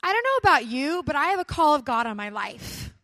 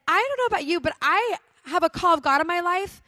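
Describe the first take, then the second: First: A bold stand in front of friends; firm declaration. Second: Much higher and louder, full conviction; the retold declaration pushed up to preaching force; bold declaration. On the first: Retold or imitated. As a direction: announce it boldly to the car. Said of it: "and I said". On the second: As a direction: proclaim it like a call to arms. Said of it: "And so I said".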